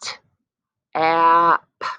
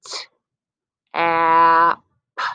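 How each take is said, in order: First: Slow blending repeat; slow sliding sounds again. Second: Slow blending sounds; slow sliding sounds. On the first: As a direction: hold each sound long and louder. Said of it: "Try it one more time". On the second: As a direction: slide through each sound, held long. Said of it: "slide to those sounds". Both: Shown as a demonstration.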